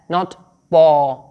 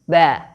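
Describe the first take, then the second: First: The syllable has a heavy, dark vowel. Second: The syllable has a light, bright vowel. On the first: The speaker calls it wrong. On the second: The speaker calls it right. "you have to produce a happy sound or a light sound"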